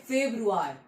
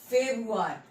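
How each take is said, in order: The two takes are said the same way.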